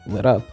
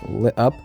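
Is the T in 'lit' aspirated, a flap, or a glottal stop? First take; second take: flap; glottal stop. First: The T is a quick flap. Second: The T is a glottal stop. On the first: "with a flap" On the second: "it can be pronounced with a glottal stop"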